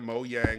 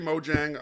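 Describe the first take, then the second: First: The J sounds like an English y. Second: The J sounds like the English j. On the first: "how they would pronounce the J in most Germanic languages" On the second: "I say Mojang"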